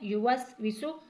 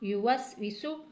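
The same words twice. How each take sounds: First: The first vowel is said short and quick. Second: The first vowel is said short and quick.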